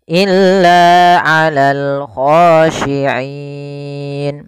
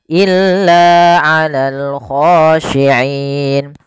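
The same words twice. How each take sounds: First: The final long vowel is held moderately long. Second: The final long vowel is held briefly. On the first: "Empat harokat" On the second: "Dua harokat"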